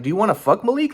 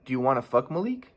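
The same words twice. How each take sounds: First: High-pitched incredulous demand; indignant question, pitched way up; exaggerated indignant retort. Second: Level, softer matter-of-fact asking; composed retelling of a blunt question; calm question. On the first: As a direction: act out the outburst he didn't make. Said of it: "I didn't even respond like that". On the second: Retold or imitated. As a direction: ask it evenly, keeping the voice down. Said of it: "I just asked her calmly".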